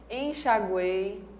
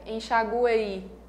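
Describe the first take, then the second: First: The E vowel sound is the strongest. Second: The I vowel sound is the strongest. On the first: "o E é realmente o som vocálico mais forte desses três" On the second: "Se eu desse mais força para o I"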